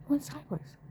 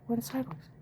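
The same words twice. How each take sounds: First: "Went sideways" said higher, stressed; emphatic repeat. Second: Said in the usual way. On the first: Real, not acted.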